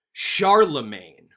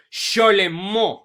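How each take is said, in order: First: "Charlemagne" drawn out loud as SHAR-luh-main, hard r and n; country bumpkin pronunciation. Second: "Charlemagne" as shar-le-MON, higher and louder; French pronunciation. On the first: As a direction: say "Charlemagne" slowly the American way, ending like "main". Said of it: "which sounds really country bumpkin". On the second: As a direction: say "Charlemagne" slowly the French way, stressed nasal ending. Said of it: "this guy's actual pronunciation of his name". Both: Shown as a demonstration.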